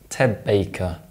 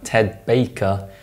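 First: Ted ends in a b sound before Baker. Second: Ted ends in a clear d sound.

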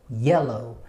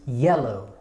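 Both takes have the same delivery.

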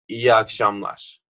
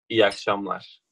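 First: It is said carefully, as when reading aloud. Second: It is said casually, as in everyday conversation. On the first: "when you're reading, it's" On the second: "when you're talking with someone, you say like"

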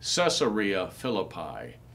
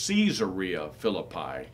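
First: The first part does not sound like Caesar. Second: The first part sounds like the name Caesar. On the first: The speaker calls it wrong. "Oftentimes people will say" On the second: The speaker calls it right. "It is named after Caesar"

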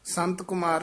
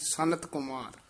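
First: The name is said as sant, no middle vowel. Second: The name is said as sanat, with a middle vowel. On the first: The speaker calls it wrong. "ਸੰਤ ਕੁਮਾਰ ਨਹੀਂ" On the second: The speaker calls it right. "ਨੰਨਾ ਹੈਗਾ ਵਿੱਚ"

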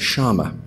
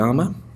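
First: The double L is a sh sound. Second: The double L is not a sh sound. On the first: This is the Uruguayan or Argentinian form. "they pronounce the two L's like a sh" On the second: This is the general Spanish form. "In Spanish, you'll call it a llama"

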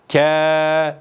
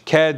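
First: The vowel after the consonant is lengthened. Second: The vowel after the consonant is short. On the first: "Harfi metlerden elif gelmiş" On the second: "K harfi üstünlü gelmiş, K diye okunuyordu"

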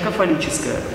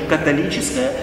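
First: The consonant after the first vowel is f. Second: The consonant after the first vowel is t. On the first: This is the Eastern form of the word. "восточное произношение" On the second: This is the Western form of the word. "Западное произношение"

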